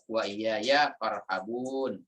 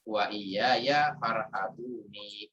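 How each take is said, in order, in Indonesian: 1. Kata terakhir berakhir pada n mati. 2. Kata terakhir berakhir dengan tambahan vokal i. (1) "hukum tajwidnya membaca uh, disukunkan pada huruf akhir" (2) "atau boleh juga dibaca wa iya ya farhabuni"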